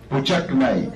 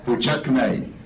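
Both takes have the same delivery.

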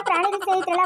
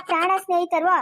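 First: ಪ್ರಾಣಿಗಳ said in full with -ಗಳ, meaning animals' friends; quoting the wrong word. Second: ಪ್ರಾಣ said short with no -ಗಳ ending, as in dear friends; corrected word. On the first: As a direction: repeat the other woman's slip ಪ್ರಾಣಿಗಳ, animals. (ತಪ್ಪು ಪದ ಪ್ರಾಣಿಗಳ ಎಂದು ಒತ್ತಿ ಹೇಳಿ) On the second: (ಸರಿಯಾದ ಪದ ಪ್ರಾಣ ಎಂದು ಚಿಕ್ಕದಾಗಿ ತಿದ್ದಿ ಹೇಳಿ) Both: Shown as a demonstration.

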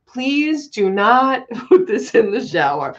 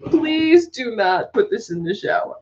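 First: Reads the memo, breaking into laughter; laughing mock memo read; memo read while laughing. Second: Said in the usual way. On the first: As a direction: quote the warning through giggles. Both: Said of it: "Summers keeps putting up the memos".

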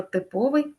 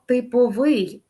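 First: "типовий" stressed on ПО; stress on middle syllable. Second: "типовий" stressed on ВИЙ; stress on final syllable. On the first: Teacher gives the characteristic sense, "типовий" stressed on ПО. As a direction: put the weight on ПО in "типовий". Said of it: "залежить від значення слова". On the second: Teacher gives the contract sense, "типовий" with final stress. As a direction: land on the last syllable of "типовий". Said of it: "наголос на останній склад". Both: Shown as a demonstration.

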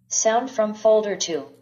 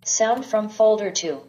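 The two takes are said the same way.

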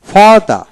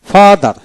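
No difference in how they are said.

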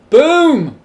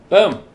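First: High, loud swooping boom; big drawn-out boom. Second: Quick, loud boom; short boom. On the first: Gamer finishing the walls, big triumphant boom. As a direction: let the boom soar up and fall. Voices placing blocks, bigger second take. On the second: Gamer finishing the walls, short punchy boom. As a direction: punch out a brief explosive boom. Voices placing blocks, first short take. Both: Real, not acted.

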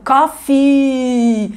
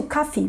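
First: "coffee" com o i final exageradamente esticado; i longo demais. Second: "coffee" mais baixinho, com i final discreto; i longo sutil. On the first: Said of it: "Não é aquele tão longo". ("coffee" com um i interminável no fim) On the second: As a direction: diga "coffee" sem esticar muito o i. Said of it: "Vocês viram que foi sutil?". ("coffee" com um i final leve) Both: Shown as a demonstration.

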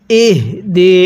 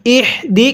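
First: Slow ইহ দি with a lightly sounded h; correct h. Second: ইহ দি with a harsh, tight h; mistaken h. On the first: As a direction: voice the h of ইহ gently before দি. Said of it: "উচ্চারণের সময় আওয়াজ করবেন". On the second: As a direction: rasp the h in ইহ, then দি. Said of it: "কেউ পড়ব না". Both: Shown as a demonstration.

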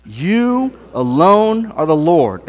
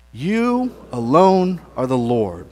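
First: Slow, firm declaration of faith; with conviction. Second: Said in the usual way. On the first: Shown as a demonstration. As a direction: lean into every word, slowly. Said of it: "Say that with conviction". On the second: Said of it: "I would like for us all together to say".

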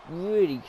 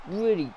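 The two takes are said the same way.

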